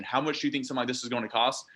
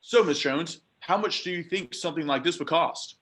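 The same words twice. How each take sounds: First: Fast, rushed throwaway; fast, rushed rookie question; quick throwaway question. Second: Higher, eager rookie asking the price; rookie mistake question. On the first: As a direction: toss off the bad question quickly. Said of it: "So never ask that question". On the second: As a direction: play the naive rookie seller. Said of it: "big question that I see a lot of people say". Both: Shown as a demonstration.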